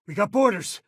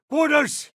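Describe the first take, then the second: First: Raised, higher urgent call; alarmed warning. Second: Alarm shout. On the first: Companion warns crew of intruders aboard, urgent raised call. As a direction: warn the crew of boarders. Ship being boarded. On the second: Companion yells to the crew as boarders arrive, shouting. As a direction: shout the alarm across the ship. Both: Acted.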